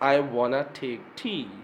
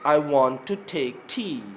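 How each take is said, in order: First: 'Want to' is reduced to 'wanna'. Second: 'Want to' is said as two full words.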